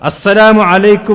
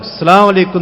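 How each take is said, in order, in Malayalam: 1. 'as-salam' എന്ന വാക്ക് പൂർണ്ണമായും വ്യക്തമായും ഉച്ചരിക്കുന്നു. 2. 'as-salam' എന്ന വാക്ക് ചുരുക്കിയും കൂട്ടിക്കുഴച്ചുമാണ് പറയുന്നത്. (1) "അള്ളാഹുവിന്റെ നാമം അങ്ങനെ തന്നെ ഉച്ചരിച്ചുകൊണ്ട്" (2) "അത് ശരിയല്ല"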